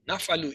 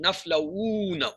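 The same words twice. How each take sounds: First: Said in the usual way. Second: Naflauna with a long, drawn-out "u"; extra stress. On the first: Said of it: "easy to say". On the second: Shown as a demonstration. Teacher showing students the needless stress, naflauna drawn out. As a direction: stretch the middle of naflauna slowly. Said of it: "increase the stress on the word".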